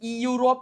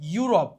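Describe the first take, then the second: First: An extra ee sound comes before the yu. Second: The word starts directly with the yu sound. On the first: The speaker calls it wrong. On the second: The speaker calls it right.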